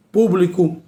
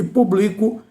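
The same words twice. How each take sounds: First: "Público" stressed on PÚ, PÚ-bli-co; stress on Público's first syllable. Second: "publico" stressed on BLI, pu-BLI-co; stress on publico's middle syllable. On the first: Teacher contrasting noun with verb, "Público" stressed on PÚ. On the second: Teacher contrasting verb with noun, "publico" stressed on BLI. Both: Shown as a demonstration. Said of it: "é substantivo e publico é verbo".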